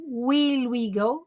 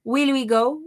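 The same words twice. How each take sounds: First: "Will we go?" said very slowly, each word drawn out; slow pronunciation model. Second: Said in the usual way. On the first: Shown as a demonstration. Teacher slowly models "Will we go?" for Brazilian students. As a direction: spell out "Will we go?" slowly for the class. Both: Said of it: "Ó a pronúncia aí".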